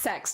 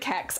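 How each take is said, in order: First: The word begins with an s sound. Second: The word begins with a k sound. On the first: This is the technically correct form. "It's pronounced sex. Technically it is" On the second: This is how people actually say it. "I pronounce it Kex"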